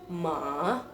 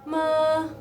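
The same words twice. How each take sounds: First: The pitch dips down, then rises. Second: The pitch stays level throughout. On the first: "ada penekanan ke bawah terus ke atas" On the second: "nadanya nadanya datar"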